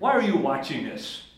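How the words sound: The question is asked in a harsh, accusing tone. The parent is scolding and judging. The speaker calls it wrong. "Your tone would turn a kid totally off"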